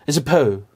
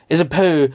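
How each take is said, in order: Both takes have the same delivery.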